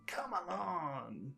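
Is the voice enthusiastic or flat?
enthusiastic. It is said warmly, with big enthusiasm. The speaker calls it right. "with a lot of enthusiasm"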